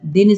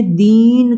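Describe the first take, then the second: First: Said in the usual way. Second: दीन stretched with a firm long ee; stressed long vowel. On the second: Shown as a demonstration. Teacher repeating the contrast, दीन stressed and drawn out. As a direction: put weight on दीन and hold it. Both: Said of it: "अक्षर पर बल देना".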